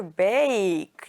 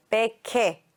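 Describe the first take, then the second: First: "bake" as one drawn-out syllable, long A, no E at the end; bake with silent E. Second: "beke" with the final E wrongly voiced as a second syllable, "bay-keh"; bake with E sounded. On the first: Teacher showing pupils what you hear, "bake" drawn out with silent E. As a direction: stretch "bake" slowly, leaving the final E silent. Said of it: "You hear bake". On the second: Teacher showing pupils what you don't hear, "beke" with a sounded final E. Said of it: "You don't hear". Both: Shown as a demonstration.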